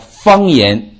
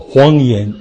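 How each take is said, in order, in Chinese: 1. 这个词开头是 f 音。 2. 这个词开头是 h 音。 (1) "我说方言" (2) "他谎言"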